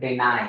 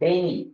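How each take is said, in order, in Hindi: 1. यह शब्द 'eye' ध्वनि से खत्म होता है। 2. यह शब्द 'ee' ध्वनि से खत्म होता है। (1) "इसको हम पढ़ते हैं डिनाई" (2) "लेकिन डेनी वर्ड नहीं पढ़ते"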